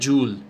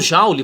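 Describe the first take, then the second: First: It is said the English way. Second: It is said the common Brazilian way. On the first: This is the original pronunciation heard in English videos. "a pronúncia correta mesmo é joule" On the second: This is the habitual pronunciation that caught on. "é uma pronúncia que pegou"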